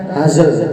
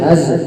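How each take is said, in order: First: The word ends with an added 'e' vowel. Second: The word ends without an added vowel. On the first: The speaker calls it wrong. "kalau pakai hazl berarti ada tambahan harokat imalah" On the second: The speaker calls it right. "Jadi haz bukan hazl"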